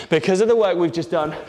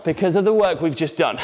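No difference in how they are said.

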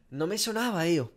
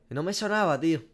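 Both takes have the same delivery.

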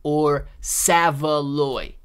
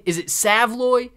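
First: Slow "Savaloy" in three syllables, SAV-a-loy; testing the word. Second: "Savloy" said as SAV-loy, short a; testing the word. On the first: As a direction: stretch "Savaloy" out slowly in three beats. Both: Shown as a demonstration. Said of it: "I wanna be able to get it right".

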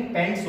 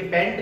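First: पैंट्स with an s after the t; पैंट्स, sounding the plural s; final s added. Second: पैंट ending on t, no s; पैंट without the plural s; common wrong form. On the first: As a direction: finish पैंट्स on a clear ts. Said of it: "हमेशा इसमें एस लगता है". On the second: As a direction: cut पैंट off at the t. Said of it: "लेकिन ये पैंट नहीं". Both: Shown as a demonstration.

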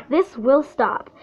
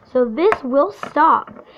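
First: Slow, pressing on "will" with a falling end; stress on will. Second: Slow, leaning on "this" with a falling end; stress on this. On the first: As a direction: push the word "will" as a firm promise. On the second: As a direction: hit the word "this" slowly and firmly. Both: Real, not acted.

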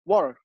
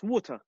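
First: "Water" the American way, matter-of-fact demo; American accent. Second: "water" said in an English accent. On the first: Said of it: "how do you say water in". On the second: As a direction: demonstrate the British way of saying "water". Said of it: "in English". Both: Shown as a demonstration.

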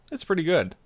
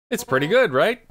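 First: Said in the usual way. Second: Rising, seeking agreement. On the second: Shown as a demonstration. Repeating it to the guest as an eager rising question. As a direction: push the question up on good and right.

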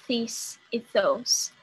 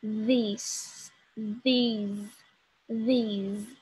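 First: "this" and "those" said with a plain d sound, tongue not between the teeth; wrong plain-d "this e those", the way learners say it. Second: Slow "this", "these", "these" with a voiced th, tongue between the teeth; right way. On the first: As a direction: say "this e those" with a flat d, no buzz. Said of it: "Eu não falo this e those". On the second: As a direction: buzz the th in "this" and "these" slowly. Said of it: "Eu falo this". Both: Shown as a demonstration.

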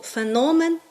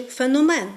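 First: Феномен with the beat on НО; stress on middle syllable. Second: Феномен with the beat on МЕН; stress on last syllable. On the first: Teacher contrasting two stresses of a word, stress on феНОмен. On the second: Teacher contrasting two stresses of a word, stress on феноМЕН. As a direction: push it to the end: феноМЕН. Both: Shown as a demonstration. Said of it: "яке теж по-різному наголошуємо".

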